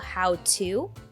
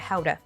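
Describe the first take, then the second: First: The 'to' is said in full before a pause. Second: The 'to' is reduced and linked to 'how'. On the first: "That's why to is not reduced in this case" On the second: "reduce to to a schwa sound, ta, and connect two words together"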